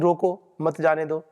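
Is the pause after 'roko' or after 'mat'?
after roko. The pause comes right after the first word. Stop them and do not let them go. "अपने अधिकारी की वार्ता कि रोको, मत जाने दो"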